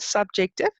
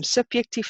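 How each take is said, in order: First: Said in the usual way. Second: "subjective" said as Afrikaans subjektief, with a y sound for the j; Afrikaans pronunciation. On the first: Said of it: "subjective in Afrikaans". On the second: Shown as a demonstration. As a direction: say "subjective" the Afrikaans way, ending in -tief. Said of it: "in Afrikaans".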